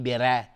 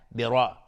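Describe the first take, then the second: First: "بره" with a light r and fronted e-like vowel; wrong thin r. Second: "برا" with a full, heavy r and back open vowel. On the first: Quran teacher shows what not to say, thin r. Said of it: "نمیگیم بره". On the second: Quran teacher corrects the thin version, heavy r. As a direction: thicken the r in "برا", darkening the vowel. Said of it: "را اینجا استعلاست چون فتحه داره". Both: Shown as a demonstration.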